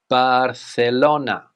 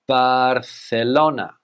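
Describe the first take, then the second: The two takes are said the same way.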